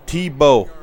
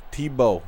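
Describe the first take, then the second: First: Loud Chicago-accent TEE-bow; calls out "Tebow" with a hard Chicago accent. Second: Said in the usual way. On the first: Shown as a demonstration. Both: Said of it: "My Chicago accent".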